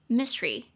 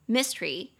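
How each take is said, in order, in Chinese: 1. 这个词只读两个音节。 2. 这个词只读两个音节。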